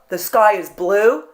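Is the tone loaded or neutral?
loaded. It sounds loaded, with a pointed, critical edge. The remark seems to carry a hidden personal jab. The speaker calls it wrong. "they heard that I said, oh"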